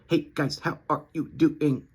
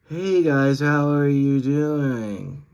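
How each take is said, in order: First: Each word is short and detached. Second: The words slur smoothly together.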